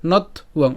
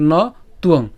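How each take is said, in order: First: নথ উয়ং with the t closing the first part; নথ উয়ং divided as not + uong; split after t. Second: ন তুয়ং with a pause after the bare "no"; ন তুয়ং with the t starting the second part; split before t. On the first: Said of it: "ত হসন্ত পর্যন্ত উচ্চারণ করে". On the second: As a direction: say "no", pause, then "tuong" for ন তুয়ং. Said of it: "অথবা". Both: Shown as a demonstration.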